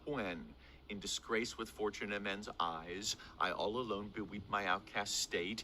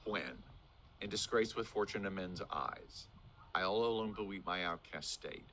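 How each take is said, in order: First: The voice rises at the end of the line. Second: The voice falls at the end of the line. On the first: The thought is not finished yet. The speaker calls it right. "Do you hear how my voice goes up at the end?" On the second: The thought sounds finished. The speaker calls it wrong. "soon as you drop the inflection"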